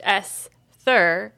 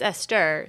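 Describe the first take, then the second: First: The middle consonant is a soft th sound. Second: The middle consonant is a plain t sound. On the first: The speaker calls it wrong. "it's not pronounced Esther" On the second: The speaker calls it right. "it's Esther"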